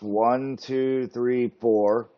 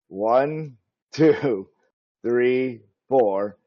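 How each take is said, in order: First: The counting is said at a quick pace. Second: The counting is said slowly and drawn out.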